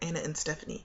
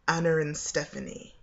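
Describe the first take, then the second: First: A glottal stop separates Anna and and. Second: An R sound links Anna and and. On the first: "In an American accent, it's almost like a glottal stop that we would put there" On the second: "In a British accent, standard British, um, usually you would say"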